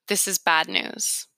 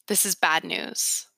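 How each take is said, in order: The two takes are said the same way.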